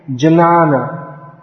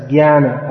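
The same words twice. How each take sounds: First: "janana" slowly as juh-NAA-nuh; purist jnana. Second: "jnana" as GYAA-nuh, hard G; jnana as gyana. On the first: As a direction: sound both J and N in "janana". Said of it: "if you say". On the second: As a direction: start "jnana" with G-Y, no J. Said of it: "We pronounce that as". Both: Shown as a demonstration.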